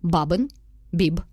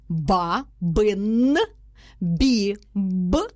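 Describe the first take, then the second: First: There is a pause after each word. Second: Each syllable is said separately with breaks. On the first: "кожне окреме слово ми робимо після нього паузу" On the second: "Ми її розкладаємо на склади"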